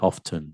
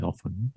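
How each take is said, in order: First: "often" with the t sounded. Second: "often" with the t silent; often without t. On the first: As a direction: say "often" as off-ten. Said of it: "some people say often". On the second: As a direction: say "often" as off-en, short o. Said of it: "but I say often". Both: Shown as a demonstration.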